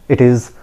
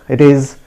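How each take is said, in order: Both takes have the same delivery.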